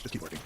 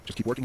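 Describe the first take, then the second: First: Low, soft, dismissive reply; brush-off. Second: "just keep working" with a rise at the end; questioning echo. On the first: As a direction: blow them off, voice dropping away. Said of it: "Kinda blew me off". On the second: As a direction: echo "just keep working" back, unsure, ending upward. Retold echo of Pat's advice. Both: Retold or imitated.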